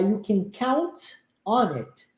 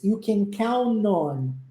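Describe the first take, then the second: First: The final T sound is clearly pronounced. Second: The final T sound is dropped. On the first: "ao invés de pronunciar you can count on it" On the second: "a gente muitas vezes omite o som do T"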